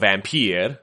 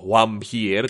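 First: The name is said in a plain English way. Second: The name is said in a Latin-style way.

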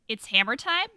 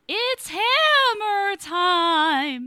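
First: It is said in her ordinary speaking voice. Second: It is said in a put-on character voice.

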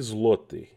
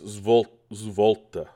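First: The word begins with a 'zl' sound. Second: The word begins with a 'zv' sound. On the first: The speaker calls it wrong. "I'm not saying that right at all" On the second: The speaker calls it right. "Apparently it's zvolta"

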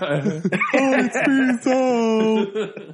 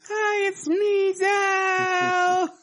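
First: It is said in a male voice. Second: It is said in a female voice.

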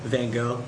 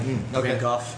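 First: The name is said with an English pronunciation. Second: The name is said with a Dutch pronunciation.

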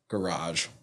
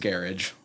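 First: It is said in a French-sounding way. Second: It is said in a non-French, English way.

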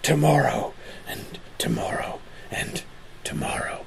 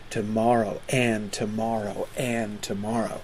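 First: The stress falls on each 'tomorrow'. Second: The stress falls on each 'and'. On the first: The speaker calls it wrong. "He always used to make fun of actors who would be like" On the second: The speaker calls it right. "Shakespeare is using the meter to place the emphasis on the conjunctions"

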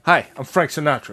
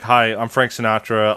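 First: It is said in a put-on imitation voice. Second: It is said in the speaker's ordinary voice. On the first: The speaker calls it right. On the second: The speaker calls it wrong.

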